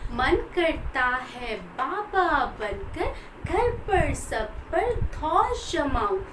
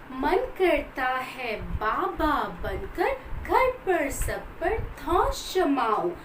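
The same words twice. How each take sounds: Both takes have the same delivery.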